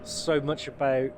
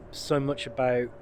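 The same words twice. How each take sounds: The two takes are said the same way.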